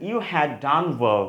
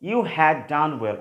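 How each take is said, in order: First: You had is said as two full words. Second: You had is said as two full words.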